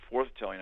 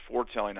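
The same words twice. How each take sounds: First: "foretelling" said with a th, FORTH-telling. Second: "foretelling" said as FORE-telling, no th sound; "foretelling" without th. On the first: Teaching listeners that prophecy causes the future, "foretelling" said as forth-telling. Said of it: "I'm causing the future". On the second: Teaching listeners that prophecy tells the future, "foretelling" said as fore-telling. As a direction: say "foretelling" with a plain t after "fore". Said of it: "I'm telling you the future". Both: Shown as a demonstration.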